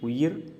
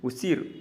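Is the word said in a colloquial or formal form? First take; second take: formal; colloquial. First: It is said in the careful written form. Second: It is said in the casual spoken form. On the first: "எழுத்து வழக்கு" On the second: "பேச்சு வழக்கு"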